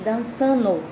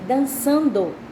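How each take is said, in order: First: The d of the ending is dropped. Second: The ending is said in full, with the d. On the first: The speaker calls it wrong. "Você está cortando as palavras" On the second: The speaker calls it right. "Em vez de dizer dançando"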